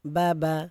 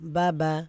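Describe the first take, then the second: The two takes are said the same way.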